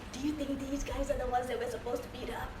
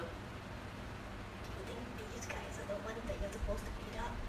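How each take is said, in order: First: It is a loud stage whisper. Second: It is a quiet whisper.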